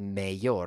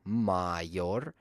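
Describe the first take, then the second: First: The first vowel sounds like ay. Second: The first vowel sounds like ah. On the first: The speaker calls it wrong. "They want to pronounce it like an A" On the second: The speaker calls it right. "which should be pronounced like ah"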